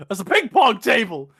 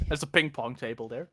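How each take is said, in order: First: Loud, exclaimed retold line; imitated alarmed outburst; mock yell. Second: Said in the usual way. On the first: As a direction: shout it as the film character. Acted shout of the quote.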